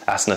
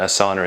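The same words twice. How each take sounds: First: The first syllable sounds like 'ass'. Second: The word rhymes with 'banana'. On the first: It is the yoga term. "Asana sounds like sticking your ass out" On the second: It is the company name. "Asana is like, oh, I use Asana while I'm eating a banana"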